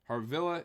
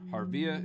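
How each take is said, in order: First: The name has an L sound in the middle. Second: The name has no L sound in the middle. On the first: "Harvilla is number one. ... With the L's" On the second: "Harvia is number two"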